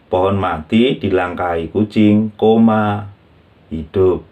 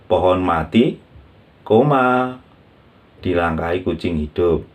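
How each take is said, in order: First: The break comes right after the word kucing. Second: The break comes right after the word mati. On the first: The meaning changes to something else. The speaker calls it wrong. "contohnya salah misalkan kita tidak tepat" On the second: A dead tree is stepped over by a living cat. The speaker calls it right. "kita harus menaruh koma dengan benar"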